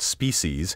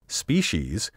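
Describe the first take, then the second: First: The middle consonant is a sharp hissing s. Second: The middle consonant is not a hissing s. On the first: This sounds socially ambitious and over-refined. The speaker calls it wrong. "this sibilant species sounds socially ambitious and intellectually superficial" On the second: This is the long-established pronunciation. The speaker calls it right. "The traditional pronunciation"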